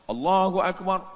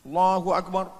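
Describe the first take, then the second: The two takes are said the same way.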